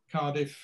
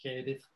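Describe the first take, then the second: First: Said in the usual way. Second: Cardiff said as "Kairdiff"; traditional Cardiff vowel. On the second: Shown as a demonstration. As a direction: give Cardiff the local "air" vowel. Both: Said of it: "referring to certain vowel sounds".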